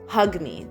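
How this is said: It is said bluntly, like an order.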